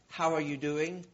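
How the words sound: It is asked sincerely, as a real question.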